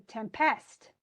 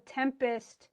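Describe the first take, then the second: First: Tempest said tem-PEST, second syllable stressed; misplaced stress on PEST in tempest; wrong stress. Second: Tempest slowly, stressed TEM-pest; drawn-out TEM in tempest; correct stress. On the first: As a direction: push the stress onto the end of tempest. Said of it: "as opposed to". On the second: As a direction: lean on the first syllable of tempest. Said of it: "the more you can emphasize". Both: Shown as a demonstration.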